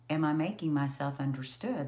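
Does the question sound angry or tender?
tender. It sounds tender, curious and genuinely asking.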